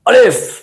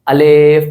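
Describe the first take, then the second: First: The word is rushed with an abrupt jolt. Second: The word is slow and drawn out. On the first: "जल्दी के चक्कर में" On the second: "थोड़ा सा टाइम लगा रहे होते हैं"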